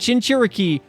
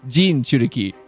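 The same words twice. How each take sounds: First: The word begins with a 'ch' sound. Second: The word begins with a 'j' sound. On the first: The speaker calls it wrong. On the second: The speaker calls it right.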